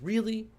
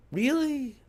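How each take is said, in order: First: Rising incredulous really; exasperated. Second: Much higher and louder, incredulous really?; a near-shout of disbelief; outraged disbelief. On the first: Vlogger venting about the insult, exasperated rising really. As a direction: pitch jumps up in disbelief on really. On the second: Vlogger venting about the insult, loud incredulous really?. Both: Real, not acted.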